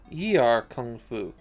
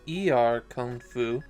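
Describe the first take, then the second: First: The first word is said with a 'y' onset. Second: The first word is said as a plain 'ee'. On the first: "the Chinese words it comes from are more like" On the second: "The katakana tells me it's supposed to be"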